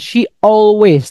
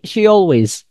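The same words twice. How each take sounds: First: The two words are said separately, without a glide. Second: The two words are joined by a y glide. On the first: The speaker calls it wrong. "Bukan she always" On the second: The speaker calls it right. "tapi she always"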